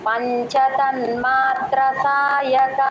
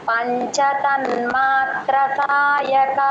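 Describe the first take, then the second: The two takes are said the same way.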